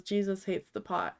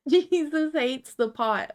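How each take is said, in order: First: Said in the usual way. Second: High, loud, slow mock proclamation; hammed-up slogan voice; mock preacher. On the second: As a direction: boom it out like a street preacher. Reads meme text dramatically.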